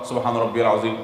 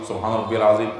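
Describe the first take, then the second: The two takes are said the same way.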